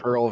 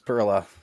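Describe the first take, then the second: First: It ends without a final vowel sound. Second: It ends with an added final vowel sound. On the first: "I used to always say Pearl" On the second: "because of the E at the end"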